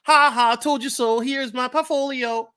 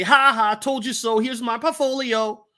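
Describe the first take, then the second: First: Higher, louder taunting gloat; gloating told you so. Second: Higher, taunting told you so; gloating told you so. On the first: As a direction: rap it out like a little rhyme. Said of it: "Let me do it again". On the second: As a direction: gloat like you were right all along. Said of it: "we wanna say". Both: Retold or imitated.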